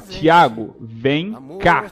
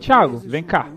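First: It is said slowly with deliberate pauses. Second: It is said smoothly, without marked pauses.

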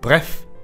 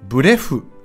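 First: It is said short, in one breath. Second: It is said longer, not in one breath. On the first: The speaker calls it right. "発音も短く一息で" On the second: The speaker calls it wrong. "ならないように気をつけましょう"

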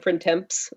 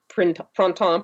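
First: It is pronounced with English sounds. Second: It is pronounced with French sounds.

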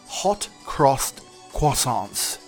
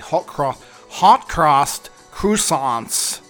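First: It is said with a British pronunciation. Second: It is said with an American pronunciation. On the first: "it's difficult to say" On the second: "it'd be easier to say it the American way"

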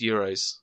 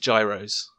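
First: The word begins with a Y sound. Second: The word begins with a J sound. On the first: "It's euros" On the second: "I'm going to pronounce this as gyros"

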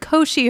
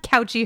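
First: The first syllable does not sound like 'couch'. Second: The first syllable sounds like 'couch'. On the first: The speaker calls it right. "It's the Cauchy horizon" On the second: The speaker calls it wrong. "this is not the Cauchy horizon"

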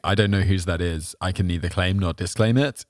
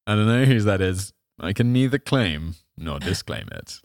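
First: It is read flatly, with no hint. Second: It is read slyly, hinting guilt.

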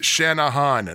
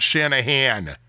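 First: The contrasting vowel is pronounced like 'o'. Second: The contrasting vowel is pronounced like 'a'. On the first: The speaker calls it right. "That's an O" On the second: The speaker calls it wrong. "It's not an A"

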